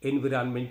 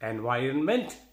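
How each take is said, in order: First: The second syllable has a short 'vi' sound. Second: The second syllable has a 'vie' sound. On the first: The speaker calls it wrong. "ఎన్విరాన్మెంట్ అని ఎన్విరాన్మెంటల్ అని పలకకూడదు" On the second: The speaker calls it right. "సరిగ్గా ఎలా పలకాలో చూద్దాం"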